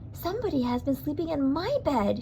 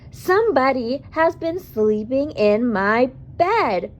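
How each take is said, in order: First: It is a sweet, low Mama Bear voice. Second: It is a loud, growly Papa Bear voice.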